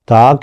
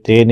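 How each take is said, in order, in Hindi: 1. नाम का अंत 'ah' स्वर में होता है। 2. नाम का अंत 'eh' स्वर में होता है। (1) "ता कहना है" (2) "इसे ते नहीं कहना"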